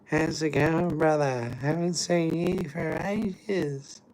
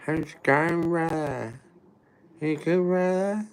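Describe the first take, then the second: First: High, slow put-on greeting voice; impression of the greeter. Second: High, slightly louder mock greeting; impression of the greeter. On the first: Showing how these strangers greet him, high put-on drawl. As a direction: hit the overfriendly high drawl. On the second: Doing the strangers' greeting again, high mock voice. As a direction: pitch up high like a pushy street greeter. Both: Shown as a demonstration. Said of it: "I can do it perfect".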